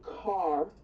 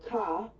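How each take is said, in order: First: It is said in a general American accent. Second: It is said in a New England accent. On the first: This is how everyone else says it. "I don't say car" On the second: This is how the speaker's own region says it. "I say car ... the New England, the Boston thing"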